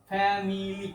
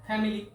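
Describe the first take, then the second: First: family drawn out slowly in three syllables; slow three-beat teaching demo of family. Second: Said in the usual way. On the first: Shown as a demonstration. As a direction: stretch family into fa-mi-li, each syllable distinct. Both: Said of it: "তিনটি দল নিয়ে গঠিত".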